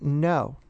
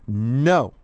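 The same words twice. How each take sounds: First: It is said at a normal, quiet volume. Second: It is said loudly with force.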